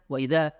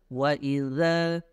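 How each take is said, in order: First: The final consonant stops abruptly with no flow. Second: The final consonant flows out gradually. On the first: The speaker calls it wrong. "Nggak bisa wa idza, wa idza gitu ya. Tidak ada uh, alirannya terlebih dahulu" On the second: The speaker calls it right. "ini harus wa idza"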